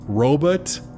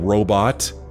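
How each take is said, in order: First: The second syllable has an 'uh' vowel, like 'but'. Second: The second syllable has an 'o' vowel, like 'bot'. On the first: The speaker calls it wrong. "It really bothers me when people pronounce it robot" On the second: The speaker calls it right. "There's no U in robot"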